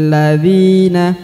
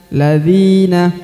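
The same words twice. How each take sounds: The two takes are said the same way.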